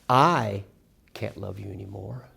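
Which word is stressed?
I. The stress is on I.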